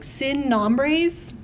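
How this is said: It is said with an English pronunciation. The speaker calls it wrong.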